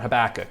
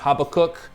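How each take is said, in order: First: The name is said in an English-sounding way. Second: The name is said in a Hebrew-sounding way. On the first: This is the form most English speakers prefer. "that's the preferred pronunciation, at least in most English-speaking circles" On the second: This form is closer to the original language. "which is a more Hebrew-sounding pronunciation"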